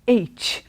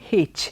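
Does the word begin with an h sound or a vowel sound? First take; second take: vowel sound; h sound. First: The word begins with a vowel sound. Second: The word begins with an h sound. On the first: The speaker calls it right. "When you say H, the first sound is A. It's a vowel sound" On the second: The speaker calls it wrong. "The word is not H"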